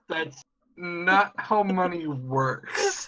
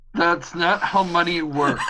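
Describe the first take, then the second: First: It is said a bit more slowly. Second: It is said at a normal speed.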